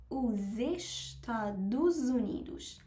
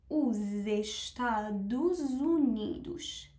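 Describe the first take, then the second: The two takes are said the same way.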